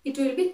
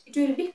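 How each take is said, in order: Both takes have the same delivery.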